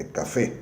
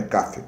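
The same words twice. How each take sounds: First: "café" as ca-FÉ, open final vowel; stress on last syllable. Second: "café" misstressed as CA-fe, weak final vowel; stress on first syllable. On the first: Teacher correcting the wrong version, "café" stressed on the last syllable. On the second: Teacher showing what it is not, "café" stressed on ca. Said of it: "não é café, é café". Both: Shown as a demonstration.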